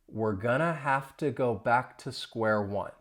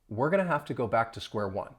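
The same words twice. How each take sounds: First: The sentence is spoken slowly. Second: The sentence is spoken at normal, faster speed. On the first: "I'll say it slowly" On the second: "Now at a normal speed"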